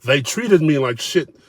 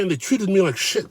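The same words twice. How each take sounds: First: "They treated me like shit" slow, every word pressed; slow emphatic repeat to stress absurdity; slow deliberate repeat. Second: Higher self-pitying whine; higher whining quote of the diner; mock whiny quote. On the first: Retold or imitated. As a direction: spell out "treated me like shit" slowly for effect. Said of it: "Those were the words, I kid you not". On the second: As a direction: whine the complaint like him. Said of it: "Those were the words".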